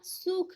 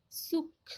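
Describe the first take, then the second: First: सूख with a lengthened oo; long vowel. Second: सुख with a short u, pitched up; short vowel. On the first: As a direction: hold the oo in सूख. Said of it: "ये बड़ा ऊ का उच्चारण". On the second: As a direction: keep the u brief in सुख. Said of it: "एक छोटा ऊ की मात्रा". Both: Shown as a demonstration.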